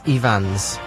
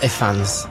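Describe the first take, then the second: First: The middle consonant is a v sound. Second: The middle consonant is an f sound. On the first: The speaker calls it right. "In Welsh, one F is a V" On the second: The speaker calls it wrong.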